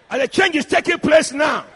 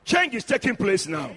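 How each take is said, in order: First: Loud, forceful preacher's proclamation; emphatic declaration. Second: Said in the usual way. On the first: Real, not acted. Preacher declaring change to husbands in church, emphatic declaration.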